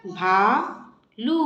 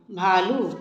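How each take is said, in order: First: भालू with the final ऊ held long, slow; long ऊ drawn out. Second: Said in the usual way. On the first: Shown as a demonstration. Teacher modelling the long ऊ for children, slowly. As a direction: stretch the ऊ at the end of भालू. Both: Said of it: "बड़े ऊ की मात्रा".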